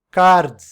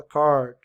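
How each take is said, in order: First: "card," loud, with a tapped r and a hard final d; wrong way, loud Portuguese r. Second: "card." with a curled American r; right way, retracted tongue. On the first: Teacher mocks the common mistake: loud "card,". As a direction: overdo "card," with a Portuguese flap. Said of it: "a gente não fala assim". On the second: Teacher shows the right way: "card." with an American r. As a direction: pull the tongue back on "card.". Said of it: "a gente fala card". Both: Shown as a demonstration.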